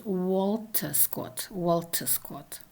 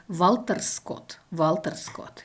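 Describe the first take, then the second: First: Walter Scott with a rounded w at the start; English version. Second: Walter Scott begun with v, "Valter Skot"; Russian version. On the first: Lecturer contrasting the English variant, initial w. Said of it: "in the English variant". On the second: Lecturer showing the Russian variant, initial v. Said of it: "in Russian it is". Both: Shown as a demonstration.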